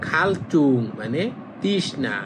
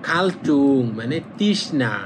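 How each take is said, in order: No difference in how they are said.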